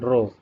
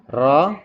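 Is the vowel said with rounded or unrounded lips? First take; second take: rounded; unrounded. First: The vowel is said with rounded lips, like o. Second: The vowel is said with unrounded lips. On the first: The speaker calls it wrong. "bukan ro ... dengan membulatkan bibir" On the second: The speaker calls it right.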